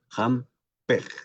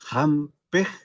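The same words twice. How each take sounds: First: The vowel is open, close to an e. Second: The vowel is closer, more like an i. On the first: "esta I se abre, un poco que se parece a la E del castellano" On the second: "un poco más una I"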